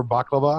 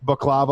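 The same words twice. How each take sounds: First: Baklava with BAK stressed; stress on first syllable. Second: Baklava with the stress on KLA; stress on second syllable. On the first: Customer correcting the dessert's name, baklava stressed up front. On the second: Customer naming a free dessert, baklava stressed in the middle. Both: Real, not acted. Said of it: "I like how you emphasize baklava".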